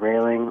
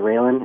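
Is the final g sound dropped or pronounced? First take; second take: pronounced; dropped. First: The final g sound is fully pronounced. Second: The final g sound is dropped. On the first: "instead of railing" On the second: "When it starts being a noun, that's something that tends to catch people's ear"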